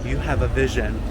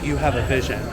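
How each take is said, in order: First: It is said in the speaker's own plain accent. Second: It is said in an imitated French accent.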